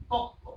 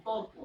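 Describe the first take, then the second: First: তক্ক, with the r dropped and k doubled; assimilated pronunciation. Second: Said in the usual way. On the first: Shown as a demonstration. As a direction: say তক্ক with a long held k. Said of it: "আমি বললাম তর্ক". (সমীভবনে তক্ক উচ্চারণ) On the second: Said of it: "এখান থেকে আমি বললাম তক্ক".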